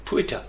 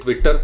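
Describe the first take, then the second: First: Twitter as TWIT-tuh, short light ending; quick falling TWIT-uh for Twitter; stress on first syllable. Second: Twitter as twit-TER, end rising and loud; heavy final r syllable in Twitter; stress on second syllable. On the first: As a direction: hit TWIT, swallow the end of Twitter. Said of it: "first syllable के ऊपर आपने stress". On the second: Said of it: "अब हम कहेंगे Twitter". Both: Shown as a demonstration.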